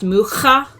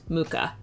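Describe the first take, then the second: First: The name is said with a Czech pronunciation. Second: The name is said with an American pronunciation. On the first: "his name is pronounced Mucha" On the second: "the Americanized Mucha"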